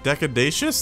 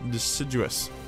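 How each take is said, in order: First: It sounds like deca-day-shus. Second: It sounds like de-sid-you-us. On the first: The speaker calls it wrong. "That doesn't sound right" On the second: The speaker calls it right. "That's right"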